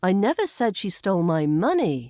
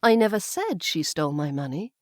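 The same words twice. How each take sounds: First: The stress falls on the word money. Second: The stress falls on the word said. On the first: She may have stolen something else. "on money" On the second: It was only hinted or implied. "maybe I hinted or implied it, but I didn't say it outright"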